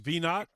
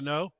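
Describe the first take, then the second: First: The name is said plainly, without French flavor. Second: The name is said with a Cajun French flavor. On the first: The speaker calls it right. "it's Venot" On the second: The speaker calls it wrong. "that Cajun spin on it"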